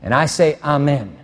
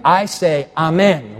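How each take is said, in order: First: Said in the usual way. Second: Lifted, louder call of amen. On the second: Shown as a demonstration. Preacher calling amen to rouse the congregation. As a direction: call it out so they answer. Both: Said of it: "No, let me say it again".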